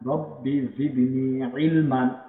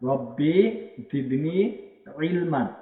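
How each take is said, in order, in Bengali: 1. শেষ শব্দটি n ধ্বনি দিয়ে শেষ হয়। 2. শেষ শব্দটি n ধ্বনি দিয়ে শেষ হয়।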